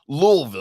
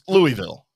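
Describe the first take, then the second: First: The name is said in a reduced local form. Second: The name is said in a fuller non-local form. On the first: This is how locals say it. The speaker calls it wrong. "I don't do like the natives do and say Louisville. Like that makes me gag" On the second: This is how outsiders say it. The speaker calls it right. "It's it's Louisville"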